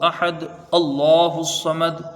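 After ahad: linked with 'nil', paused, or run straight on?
run on. Ahad runs into allahu without pause or linking. The speaker calls it wrong. "ऐसे जो पढ़ते हैं वो कायदे के खिलाफ होता है।"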